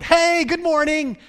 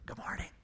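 First: It is shouted loudly. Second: It is whispered softly.

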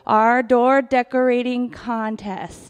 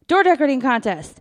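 First: It is said slowly. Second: It is said fast.

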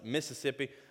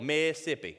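First: Every syllable of the word is pronounced. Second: One syllable of the word is dropped. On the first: The speaker calls it right. "No, it's Mississippi" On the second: The speaker calls it wrong. "A lot of people skip the syllable"

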